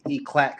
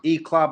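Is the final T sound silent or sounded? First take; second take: sounded; silent. First: The word ends with a T sound. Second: The word ends without a T sound. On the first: The speaker calls it wrong. "people pronounce it E-Clat because it's a T at the end" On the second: The speaker calls it right. "It's pronounced E-Clat"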